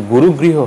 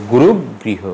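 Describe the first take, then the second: First: গুরুগৃহ run straight through; single g. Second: গুরুগৃহ slowly, held on middle g; গুরুগৃহ with stretched "ru" and stop; doubled g. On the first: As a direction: say গুরুগৃহ as "guru-griho". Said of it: "হবে না". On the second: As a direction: say গুরুগৃহ as "gurug-griho". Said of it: "হবে". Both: Shown as a demonstration.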